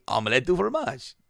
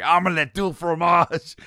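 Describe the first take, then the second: First: Mildly happy cartoon imitation; a touch of cheer, lightly acted. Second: High, slow mock-angry outburst; hammed-up cartoon anger. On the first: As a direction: say it as a contented cartoon boy. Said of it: "He's happy". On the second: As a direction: imitate an angry cartoon boy, stretched out and raised.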